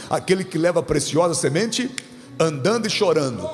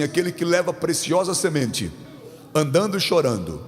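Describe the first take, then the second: First: "semente" left rising, then "andando e chorando" stressed; emphatic recitation. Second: Said in the usual way. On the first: Shown as a demonstration. Preacher stressing the psalm, "andando e chorando" emphasized. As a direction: lean firmly on "andando e chorando". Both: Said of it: "Vamos dar ênfase nisso aqui?".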